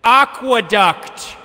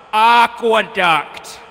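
First: Aqueduct said slowly, every syllable savored; savoring a word. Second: Aqueduct slow with a falling tune; savoring a word. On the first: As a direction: draw out Aqueduct with relish. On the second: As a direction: let Aqueduct fall away slowly. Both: Shown as a demonstration. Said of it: "wanna hear a cool word to say".

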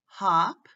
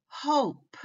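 First: "hop" said with a short, open O as in "lot". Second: "Hope" said with a long O, like the letter's name. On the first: Teacher contrasting two vowels for learners, "hop" with short O. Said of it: "short O". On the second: Teacher showing learners the changed vowel, "Hope" with long O. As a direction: stretch to the long "oh" vowel in "Hope", pitched high. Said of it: "say it with a long O". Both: Shown as a demonstration.

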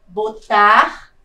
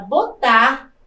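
First: Botar with a loud, held TAR; stress on final syllable. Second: Said in the usual way. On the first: Shown as a demonstration. Teacher shows an oxytone, Botar with a loud stressed TAR. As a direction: lean hard on the end of Botar. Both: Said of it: "também é uma palavra oxítona".

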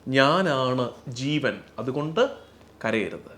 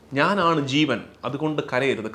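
First: Slow reverent voicing of ഞാനാണ് ജീവൻ; slow solemn quote. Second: Said in the usual way. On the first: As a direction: speak the Lord's words slowly and gravely, letting കരയരുത് sink. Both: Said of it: "ഒന്നാമത്തെ കാരണം പറയുന്നത്".

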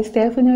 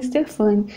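First: "Stephanie" said the English way, STEF-a-nee; "Stephanie" with the English ending; English-style name. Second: "Stefane" said the Portuguese way, ste-FA-ni; "Stefane" in Brazilian Portuguese form; Portuguese-style name. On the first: Vlogger trying the gifter's name the English way. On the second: Vlogger trying the gifter's name the Portuguese way. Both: Shown as a demonstration. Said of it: "não sei se pronuncia Stephanie ou Stefane".

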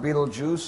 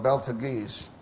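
First: Betelgeuse said like "beetle juice"; spoken pronunciation. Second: Beltagese read as it is spelled; spelling pronunciation. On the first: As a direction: say Betelgeuse as BEE-tul-jooz. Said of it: "pronounced Betelgeuse, spelled". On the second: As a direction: sound out Beltagese as BEL-ta-geese. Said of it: "spelled Beltagese". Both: Shown as a demonstration.

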